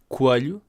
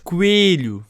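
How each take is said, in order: First: The word's sounds are pronounced lightly. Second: The word's sounds are pronounced more heavily. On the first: This is how the speaker says it. "eu digo coelho" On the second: This is how some other people say it. "há gente que diz coelho; As pessoas carregam mais nas letras"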